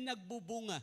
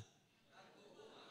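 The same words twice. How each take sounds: First: Said in the usual way. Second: A slow hushed whisper of "Nagbubunga". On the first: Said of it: "Sabi nga natin". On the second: Shown as a demonstration. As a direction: whisper "Nagbubunga" slowly with no voice at all. Preacher repeats key word for emphasis.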